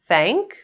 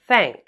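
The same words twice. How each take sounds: First: The voice rises at the end. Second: The voice falls at the end.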